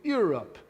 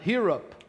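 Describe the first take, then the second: First: The word begins without an h-like breath. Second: The word begins with an h-like breath. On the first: "Tá errado falar Europe" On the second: "sai aspirado"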